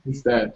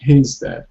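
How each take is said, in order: First: The h at the start is almost silent. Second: The h at the start is clearly pronounced. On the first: The speaker calls it right. "the H is pretty silent at the beginning" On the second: The speaker calls it wrong. "it's not like his dad"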